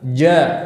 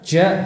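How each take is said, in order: First: The j sound is made with a full closure. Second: Air leaks out during the j sound. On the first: The speaker calls it right. "Yang benar ja" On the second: The speaker calls it wrong. "menyertakan udara ... ja salah"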